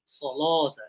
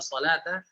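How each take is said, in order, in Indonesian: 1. L-nya tebal dan berat. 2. L-nya tipis dan ringan. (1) "lamnya ditafkhim, ditebalkan" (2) "tarqiq, tipis lamnya"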